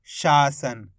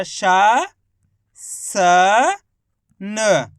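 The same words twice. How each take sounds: First: Said in the usual way. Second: शा, स, न each held alone with long gaps; letter by letter. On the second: Shown as a demonstration. Teacher spelling for learners, शा स न in separated sounds. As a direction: sound out शा स न piece by piece. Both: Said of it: "तो मिलके बन गया".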